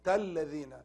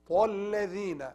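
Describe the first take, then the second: First: It starts with a light, thin t sound. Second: It starts with a heavy, emphatic t sound. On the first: The speaker calls it wrong. "تَالَّذِينَ is wrong" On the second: The speaker calls it right. "It should be heavy"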